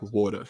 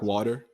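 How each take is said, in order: First: "water" in a South African accent; South African "water", vowel set low; South African pronunciation. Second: "water" in an American accent; American-style "water", lilting up at the end; American pronunciation. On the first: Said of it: "It's, like, much lower". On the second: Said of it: "They would say, like". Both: Shown as a demonstration.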